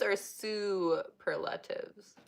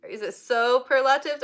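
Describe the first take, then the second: First: Superlatives with an "oo" first syllable; "SOO-per-latives", first vowel an OO; super-latives pronunciation. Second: Superlatives with a long "soh" first syllable; "SOH-per-latives", first vowel an O; so-perlatives pronunciation. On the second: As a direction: say superlatives starting like "soap". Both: Shown as a demonstration. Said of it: "is it superlatives or superlatives".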